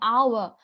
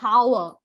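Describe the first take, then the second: First: The word begins with a vowel, no h sound. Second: The word begins with an audible h sound. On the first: The speaker calls it right. "It's hour. ... because it's a silent" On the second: The speaker calls it wrong. "It's not hour, right?"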